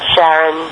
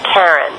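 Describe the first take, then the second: First: The name begins with an SH sound. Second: The name begins with a K sound. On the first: "pronounced the CH in the moon's name as SH" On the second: "with an initial K sound"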